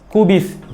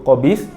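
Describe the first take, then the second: First: The first vowel sounds like 'u'. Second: The first vowel sounds like 'o'. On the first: This is the standard form. The speaker calls it right. "Yang betul ialah kubis" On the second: This is the usual everyday or dialect pronunciation. The speaker calls it wrong. "biasanya kita menyebut qobis"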